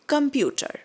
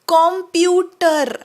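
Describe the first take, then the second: First: The first vowel is a weak schwa sound. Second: The first vowel is a full 'o' sound. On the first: The speaker calls it right. "It is कम्प्युटर" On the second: The speaker calls it wrong. "असं आपण म्हणतो नाही"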